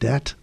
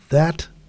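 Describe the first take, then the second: First: The word begins with a d sound. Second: The word begins with a th sound. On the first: "have a hard d or T sound" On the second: "words that begin with th"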